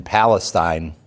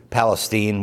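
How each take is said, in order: First: "Palestine" with last syllable rhyming with "line"; Palestine ending in "stine". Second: "Palestine" with last syllable rhyming with "seen"; Palestine ending in "steen". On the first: Real, not acted. Naming a town to the class, "Palestine" said PAL-uh-styne. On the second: Shown as a demonstration. Checking the local name with listeners, "Palestine" said PAL-uh-steen. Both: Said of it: "what are we saying now?".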